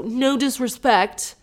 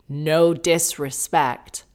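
First: Higher, slow and pointed; mock polite. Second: Very slow, smug; petty sign-off. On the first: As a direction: drag it out with fake courtesy. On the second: Retold or imitated. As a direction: savor the jab. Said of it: "[name] fired back with an Instagram post saying".

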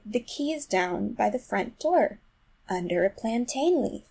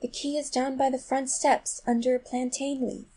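First: Slow, gentle repetition; gently and slowly. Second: Gentle, high-pitched coaxing; gentlest voice. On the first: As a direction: spell it out patiently, drawing it out slowly. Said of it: "very gently and slowly". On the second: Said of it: "in the gentlest voice". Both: A narrator's reading.

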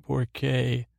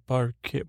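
First: "porque" said as "por-kay"; corrected Spanish. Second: "porque" slipped into "park"; mispronounced Spanish. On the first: Recapper correcting a Spanish word, careful pronunciation. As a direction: say "porque" in full, with an oh. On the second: Recapper sounding out noted Spanish, mispronounced. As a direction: say "porque" with an ah, cut short. Misreads Spanish word, then corrects it. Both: Real, not acted.

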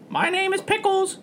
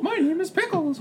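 First: High cartoon-mascot squeak; Mickey Mouse. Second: Exaggerated, very high cartoon mouse; Mickey Mouse. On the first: Introducing Pickles the parrot, sounding like Mickey Mouse. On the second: Repeating Pickles's introduction as a mock Mickey Mouse. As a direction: squeak it in a giggly falsetto. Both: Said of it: "That sounded like Mickey Mouse".

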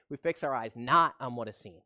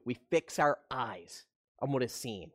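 First: "not" pressed a little harder in the corrected line; stress on not. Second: Said in the usual way. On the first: Real, not acted. Pastor correcting his misquote, slight stress on "not". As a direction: lean on "not" as you fix the slip. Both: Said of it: "I'm sorry".

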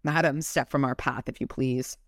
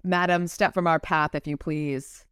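First: Said in the usual way. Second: Amateur English accent, as read by an American. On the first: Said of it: "How do you not use ... weird accents". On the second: Shown as a demonstration. Redoing Michael's line for the co-host, English accent. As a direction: put on a polite English accent. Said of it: "a lovely accent here".

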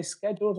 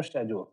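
First: Scheduled with a hard sk start; first variant. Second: Scheduled with a soft sh start; second variant. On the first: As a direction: say scheduled as "sked-juled". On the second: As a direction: say scheduled as "shed-juled". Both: Shown as a demonstration. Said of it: "Do you say scheduled or scheduled".

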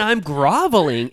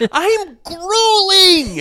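First: Said in the usual way. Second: Very high, drawn-out mock bellow; mock garbled outburst. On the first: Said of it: "I think he meant". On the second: Co-host mimicking his garbled words, hammed-up wail. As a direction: howl GRUELING slowly, imitating his blunder. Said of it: "a couple of garbled".

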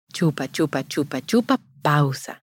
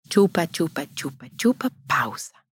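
First: Chupa, chupa at a steady beat, pausa dropped; plain counted rhythm; sucking rhythm demo. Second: Chupa, chupa softer, pausa nearly whispered; soft sucking demo. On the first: Repeating the feeding rhythm for mothers, steady chant. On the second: Showing mothers how real feeding sounds, soft chant. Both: Shown as a demonstration. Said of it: "si tú ves".

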